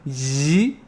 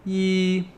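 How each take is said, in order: First: The pitch rises from low to high. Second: The pitch stays level and held. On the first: It means the aunts on the mother's side. "Second tone" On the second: It means one. "That is the first tone"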